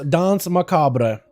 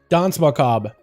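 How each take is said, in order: First: It is British, with every letter of macabre sounded. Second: It is American, not sounding every letter of macabre. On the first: "like the English pronunciation is Dance Macabre. You say the whole thing, every letter" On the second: "the American version, is Dance Macabre"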